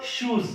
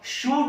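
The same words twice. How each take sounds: First: शूज with a final z sound; correct plural form. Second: शू with no final z sound; singular form. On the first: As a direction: close शूज on a clear z. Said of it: "आपको बोलना होगा शूज". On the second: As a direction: say शू ending on the open vowel. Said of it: "शू नहीं बोल सकते". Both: Shown as a demonstration.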